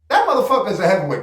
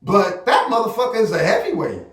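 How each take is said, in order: First: "That motherfucker is a heavyweight" rattled off fast, all at once; rapid repeat. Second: Said in the usual way. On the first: Shown as a demonstration. Streamer insists to his chat, saying it fast. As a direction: fire it back quickly for emphasis.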